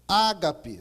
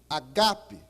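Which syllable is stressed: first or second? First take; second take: first; second. First: The stress is on the first syllable. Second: The stress is on the second syllable. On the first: This is the usual local way of saying the word. "a gente pronuncia ágape" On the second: This is how the word is said in the original language. "O acento vai no segundo A, no segundo alfa"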